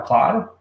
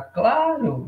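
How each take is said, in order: First: Said in the usual way. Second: Claro with a stretched first vowel and falling end; assured intonation. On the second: Shown as a demonstration. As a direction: say claro as a definite "of course", falling. (claro com entonação afirmativa, caindo no final) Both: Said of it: "Entonação".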